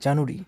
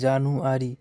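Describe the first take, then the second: First: It is said with three syllables, middle reduced. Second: It is said with four full syllables. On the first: The speaker calls it right. "উচ্চারণ হবে জানুরি" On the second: The speaker calls it wrong. "আমরা যে ভদ্রে হলে জানুয়ারি, বিষয়টা তা না"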